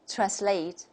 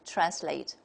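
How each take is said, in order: First: The stress is on the second syllable. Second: The stress is on the first syllable. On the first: This is the British pronunciation. "the stress is on the second syllable" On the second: This is the American pronunciation. "the American model will just take the opposite"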